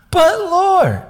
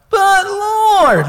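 First: High, loud mock whine; whiny protest. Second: Very high, loud, drawn-out mock whine; exaggerated whine. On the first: Gideon objecting to God's command, whiny mock protest. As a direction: plead in a put-on squeal. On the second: Preacher redoing Gideon's objection to God, hammed-up whine. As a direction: overdo the squealing protest. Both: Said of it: "you gotta have a little bit of the, eh".

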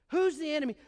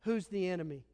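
First: Said in the usual way. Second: Quiet question. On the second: Shown as a demonstration. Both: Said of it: "Question one".

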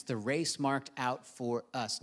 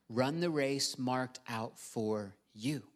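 First: Said in the usual way. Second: Slow line landing on a set-apart "you"; stress on YOU. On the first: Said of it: "I wanna emphasize the word". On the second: Shown as a demonstration. Preacher telling listeners the race is theirs, stressing "you". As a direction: draw the phrase out, then set "you" on its own. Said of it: "I wanna emphasize the word you".

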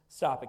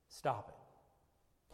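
First: "Stop it." snapped out louder; firm loud stop. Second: Breathy hushed "Stop it."; whispered stop. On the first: Preacher commanding the congregation to quit, loud. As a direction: bark "Stop it." with force. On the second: Preacher pleading softly with the congregation, whispered. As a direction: whisper "Stop it." close and low. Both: Shown as a demonstration. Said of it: "preacher pleading with runaways".

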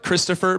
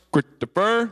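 First: Said in the usual way. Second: Christopher in two punched chunks, higher, middle swallowed; stern manly dad. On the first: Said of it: "like Christopher, but with". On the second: Shown as a demonstration. Dad calls his son Christopher, imitated stern call. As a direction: imitate a father's abrupt summons on Christopher. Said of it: "a stern, manly voice".

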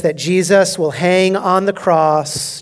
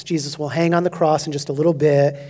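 First: Slow emphasis. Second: Quick restatement. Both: Shown as a demonstration.

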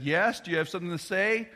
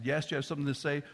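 First: Stern father. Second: Said in the usual way. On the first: Retold or imitated. Father confronting peeking child.

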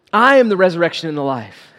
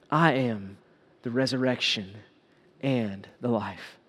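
First: Quicker verse with stress on "I am"; firm declaration. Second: Gentle solemn pronouncement. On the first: Shown as a demonstration. Preacher repeats the verse to the congregation, firmly emphatic. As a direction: declare it, punching "I am" at full voice. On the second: Acted. Jesus gives Martha a comforting truth, softly and solemnly.

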